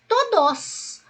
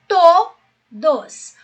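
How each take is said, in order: First: The stress is on the last syllable. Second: The stress is on the first syllable. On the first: The speaker calls it wrong. "Ou no dos" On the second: The speaker calls it right. "você imaginaria um acento no to"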